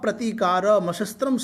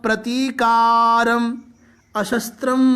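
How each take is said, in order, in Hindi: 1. दोनों शब्द बिना किसी विराम के जुड़े हुए बोले जाते हैं। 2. दोनों शब्द विराम के साथ अलग-अलग बोले जाते हैं। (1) "ऐसा भी बोला जा सकता है, संयुक्त है" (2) "प्रतीकारम अशस्त्रम शस्त्र पाणय ऐसा बोल दिया"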